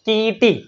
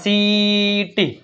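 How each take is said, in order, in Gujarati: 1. આ શબ્દ "k" અવાજથી શરૂ થાય છે. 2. આ શબ્દ "s" અવાજથી શરૂ થાય છે. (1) "આમાં વાંચ્યું કીટી" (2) "સીનો ઉચ્ચાર સ થયો"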